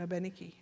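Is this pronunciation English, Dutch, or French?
French. It is pronounced the way French speakers say it.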